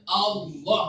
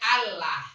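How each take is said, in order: First: The L is pronounced thick and heavy. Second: The L is pronounced thin and light. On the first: It names God, said with reverence. "maka lafaz ditebalkan ta'ziman lillah Ta'ala" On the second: It names the pagan goddess. "Kalau dewanya"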